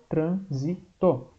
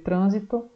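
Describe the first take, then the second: First: "trânsito" very slowly in three pieces; "trân... si... to", one effort each; syllable by syllable. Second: Said in the usual way. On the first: Shown as a demonstration. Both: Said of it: "são três esforços".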